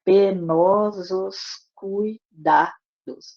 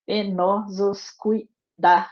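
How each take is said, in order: First: "Penosos cuidados" stretched very slowly, each syllable separated for counting; scanning syllables. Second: "Penosos cuidados" read slowly as a whole line with a fall on "cuidados"; reading the verse. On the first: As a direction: drag out "Penosos cuidados" syllable by syllable to mark the beats. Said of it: "a gente vai contar até a última sílaba tônica". ("Penosos cuidados" escandido, sílaba por sílaba, bem devagar)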